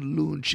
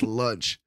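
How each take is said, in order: First: The word is said with a foreign-accented pronunciation. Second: The word is said with a standard English pronunciation. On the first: The speaker calls it wrong. "mispronouncing the same fucking word" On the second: The speaker calls it right. "It's lunch"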